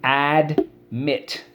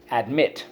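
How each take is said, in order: First: "admit" split into AD, pause, MIT; syllable by syllable. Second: Said in the usual way. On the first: Shown as a demonstration. Teacher leading class through the word, syllable by syllable. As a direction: break "admit" into two slow, separate beats. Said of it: "first syllable". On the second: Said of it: "Admit, let's go".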